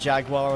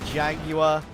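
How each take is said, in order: First: It is said in an American accent. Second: It is said in a British accent. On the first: The speaker calls it wrong. "as some of my American friends might say it" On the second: The speaker calls it right. "It's got a U in it"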